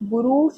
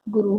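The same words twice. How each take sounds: First: The final u vowel is long. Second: The final u vowel is short. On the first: The speaker calls it wrong. "बड़े ऊ की मात्रा नहीं आएगी इसके अंदर, गुरु शब्द नहीं होगा" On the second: The speaker calls it right. "गुरु होगा"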